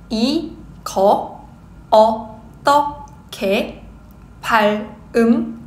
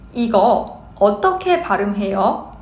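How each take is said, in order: First: The phrase is spoken slowly. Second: The phrase is spoken at normal speed. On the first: "Slow speed" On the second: "Normal speed"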